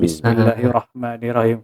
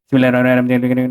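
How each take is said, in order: First: The phrase is said slowly with a heavy r. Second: The phrase is said quickly and run together. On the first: The reciter is calm and focused. The speaker calls it right. "kita cuba perlahankan tempo kan" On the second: The reciter is rushing without focus. The speaker calls it wrong. "rap kan"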